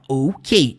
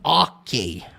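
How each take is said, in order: First: It is said as two letters, O and K. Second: It is said with a Brazilian Portuguese pronunciation. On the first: The speaker calls it right. "É por isso que nós falamos dessa forma" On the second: The speaker calls it wrong. "E não ok"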